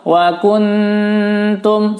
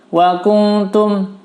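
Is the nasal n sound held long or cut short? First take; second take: long; short. First: The n is held long with a nasal hum. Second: The n is cut short with no nasal hold. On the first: The speaker calls it right. "Yang penting ditahan" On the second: The speaker calls it wrong. "tidak ditahan, tidak disamar"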